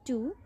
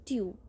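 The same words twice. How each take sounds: First: Said in the usual way. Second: ट्यू said as tyoo, y before the oo; careful tyoo for two; ट्यू with a y glide. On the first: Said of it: "टू बोलेंगे". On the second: Shown as a demonstration. Teacher showing students the perfect ट्यू pronunciation. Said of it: "यू का sound लगाएंगे".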